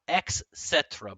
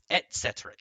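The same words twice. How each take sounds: First: The first word lacks a clear t sound. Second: The first word has a clear t sound. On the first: The speaker calls it wrong. "It's not et cetera" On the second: The speaker calls it right. "It's et cetera. E T"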